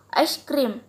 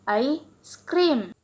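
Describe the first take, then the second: First: "ice cream" run together as one term; juncture demo. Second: "I scream" split after "I"; I, short break, SCREAM as its own word; juncture demo. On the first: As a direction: join "ice" straight onto "cream". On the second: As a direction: pause after "I", then say "scream". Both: Shown as a demonstration. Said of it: "stopping of several segments".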